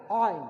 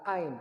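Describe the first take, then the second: First: "Ain" pushed out higher and louder from the throat; correct letter reading. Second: "ain" with a plain light vowel start; wrong reading. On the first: Teacher modelling the letter, high loud throaty "Ain". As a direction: hit the start of "Ain" hard, high and loud. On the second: Teacher showing the misreading, plain light "ain". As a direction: say "ain" at usual pitch, without throat sound. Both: Shown as a demonstration. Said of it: "Bukan ain".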